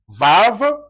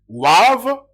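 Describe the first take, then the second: First: The word begins with a V sound. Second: The word begins with a W sound. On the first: This is the modern Hebrew pronunciation. "c'est ce qui donne V" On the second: This is the ancient Hebrew pronunciation. "c'est ce qui donne W"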